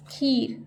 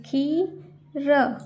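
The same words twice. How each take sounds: First: Said in the usual way. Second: खीर slowly as खी, pause, र; split syllables. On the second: Shown as a demonstration. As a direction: sound out खीर with long ee. (खीर को तोड़कर, खी-र) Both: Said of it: "जैसे मैं बोल रही हूँ".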